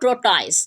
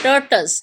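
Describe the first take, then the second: First: The second syllable has a full vowel. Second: The second syllable is short and reduced. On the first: The speaker calls it wrong. "not tortoise" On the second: The speaker calls it right. "First one is tur, second is turs"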